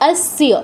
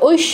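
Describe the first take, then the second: First: The word begins with a plain 'o' sound. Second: The word begins with an 'oi' sound. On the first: The speaker calls it right. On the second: The speaker calls it wrong. "ঐশ্য বলবেন না"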